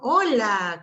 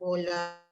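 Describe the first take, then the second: First: It is said in a high, melodic tone. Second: It is said in a flat, level tone. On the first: The speaker calls it right. "Usar un tono elevado, cariñoso y musical" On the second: The speaker calls it wrong. "no hablarle de manera plana"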